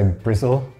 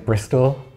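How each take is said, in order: First: It is said in a rural Bristol accent. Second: It is said in a plain standard accent. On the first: "we might say Brizzle" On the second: "instead of saying Bristol"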